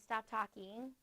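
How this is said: It is said casually and calmly.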